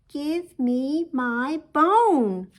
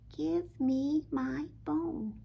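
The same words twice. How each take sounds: First: It is said louder still. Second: It is said softly.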